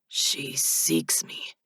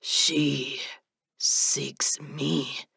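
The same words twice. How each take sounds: First: She stressed slow and soft; slow emphatic She seeks me. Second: She stressed, slow and soft; emphasis on she seeks me. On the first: Silas answers Abel stressing She. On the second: Silas insists in quiet emphasis she seeks him. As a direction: lean hard on She. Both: A narrator's reading. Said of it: "the emphasis on those words".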